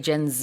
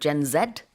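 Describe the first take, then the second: First: The Z is said the American way. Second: The Z is said the English way.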